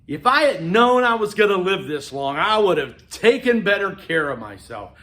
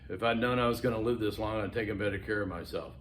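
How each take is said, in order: First: It is said slowly and deliberately, with strong emphasis. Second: It is said quickly and plainly, without emphasis. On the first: The speaker calls it right. "You have to deliver it like that. It has to draw people in" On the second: The speaker calls it wrong. "You can't just get up there and say"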